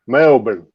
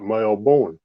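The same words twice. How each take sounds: First: Melbourne with a short, reduced second syllable; Melbourne said as MEL-bin. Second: Melbourne with a full "born" ending, lower and softer; Melbourne said as mel-BORN. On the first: Teaching the host a viewer's last name, Melbourne as MEL-bin. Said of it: "how to say that last name". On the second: Showing the host the mistaken last name, Melbourne as mel-BORN. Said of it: "not Melbourne". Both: Shown as a demonstration.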